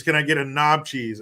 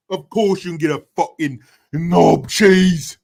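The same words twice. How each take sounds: First: Said in the usual way. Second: Loud, hammed-up British accent; exaggerated British voice, pitched up and loud. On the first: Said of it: "it doesn't sound too gross when you say it in that accent". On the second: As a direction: belt it out in a put-on British accent. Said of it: "when you say it in that accent".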